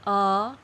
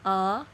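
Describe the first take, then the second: No difference in how they are said.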